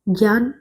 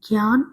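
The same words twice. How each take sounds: First: The first consonant cluster has the Sanskrit pronunciation. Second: The first consonant cluster has the Hindi pronunciation. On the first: This is how the word is said in Sanskrit. "जैसे हमने क्या कहना है संस्कृत में" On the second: This is how the word is said in Hindi. "Hindi में क्या होता है कि ज्ञा का उच्चारण ज्ञा करते हैं"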